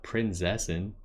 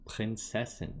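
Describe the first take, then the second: First: The middle z sounds like a buzzing z. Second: The middle z sounds like ts. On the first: The speaker calls it wrong. "Not Prinzessin. That ain't right" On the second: The speaker calls it right. "She pronounces her Z's all wrong"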